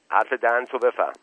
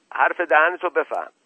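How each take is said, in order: First: Sharp retort, only slightly raised. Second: Loud, high warning; furious shout. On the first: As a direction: warn him curtly, short of shouting. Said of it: "با لحن تندی گفت". (لحن تند و هشداردهنده) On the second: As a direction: shout it red-faced at an opponent. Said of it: "با رنگ و روی برافروخته فریاد زد". (فریاد برافروخته و خشمگین) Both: A narrator's reading.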